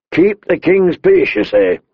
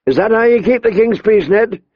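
First: Higher and slower, throwing the words back; mocking echo. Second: Higher, pressing the accusation; angry challenge. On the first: The king throwing Ned's words back at him, mocking. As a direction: sneer the phrase back at him. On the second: The king confronting his injured Hand, angry. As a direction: demand an answer, heated. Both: A narrator's reading.

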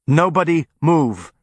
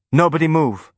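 First: Loud, slow and forceful; more forceful. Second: Loud and higher, shaky; loud but quavering. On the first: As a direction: hammer the order home. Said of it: "this time with more force". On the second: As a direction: brave order with a tremble. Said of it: "in a loud but quavering voice". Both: A narrator's reading.

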